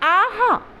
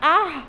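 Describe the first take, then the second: First: It is voiced as a cry of delight. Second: It is voiced as a cry of pain. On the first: Something tastes very good. "इस तरह से हम कहेंगे तो ये शब्द का अर्थ क्या निकलेगा कि बहुत ही स्वादिष्ट है" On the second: Someone has been hurt. "इस तरह से कहा जाए तो ये दर्द का सूचक शब्द है"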